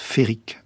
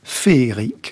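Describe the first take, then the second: First: The word is said with two syllables. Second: The word is said with three syllables. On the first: The speaker calls it right. "Paul Fort prononce « Féric »" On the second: The speaker calls it wrong. "nous avons tendance à dire « Féric »"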